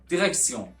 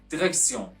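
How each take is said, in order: Both takes have the same delivery.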